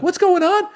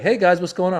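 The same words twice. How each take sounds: First: Very high, loud echo; incredulous outburst. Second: Breezy imitated hello, raised pitch; casual greeting. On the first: Retold or imitated. Comic answering the casual late host, shrieked incredulous echo. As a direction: throw the question back in disbelief. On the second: Late host greeting waiting comedians, casual and oblivious. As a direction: stroll in without a care. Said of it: "Ahmed casually comes strolling in".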